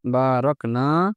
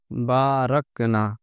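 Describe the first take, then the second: First: বারাকনা said slowly with a long final নাা and a rising end; long final vowel. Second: বারাকনা said very slowly with a short final না; slow teaching read of বারাকনা with a short না; slow demo pronunciation. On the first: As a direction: stretch the না in বারাকনা, lifting at the end. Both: Shown as a demonstration. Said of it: "দেখেন তো উচ্চারণ কি হলো?".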